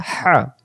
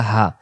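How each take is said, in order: First: "হা" with a whooshing breath; hissing mid-throat ha. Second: Open, easy "হা"; "হা" without throat friction; plain ha. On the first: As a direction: squeeze "হা" from the middle of the throat. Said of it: "শো শো আওয়াজে ... গলার মাঝখান থেকে". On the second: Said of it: "এটা বেলা হা". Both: Shown as a demonstration.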